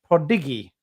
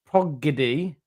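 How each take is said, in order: First: The d sound comes before the g sound. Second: The g sound comes before the d sound. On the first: The speaker calls it right. "It's prodigy" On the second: The speaker calls it wrong. "stop saying progedy"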